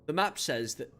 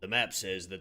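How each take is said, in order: First: It is said in the plain narrating voice. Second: It is said in a deep character voice.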